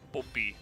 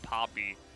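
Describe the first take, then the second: First: The name begins with a soft B sound. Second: The name begins with a clear P sound.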